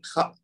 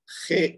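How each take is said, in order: First: The name ends in an 'ah' vowel. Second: The name ends in an 'eh' vowel. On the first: This is how it is said in Arabic. "लेकिन ये खा हो जाएगा" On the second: This is how it is said in Urdu. "इसको खे हम कहते हैं ना"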